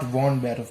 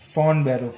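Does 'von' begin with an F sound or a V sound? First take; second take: V sound; F sound. First: The word von begins with a V sound. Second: The word von begins with an F sound. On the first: The speaker calls it wrong. "and not von Beruf" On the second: The speaker calls it right. "It is von Beruf"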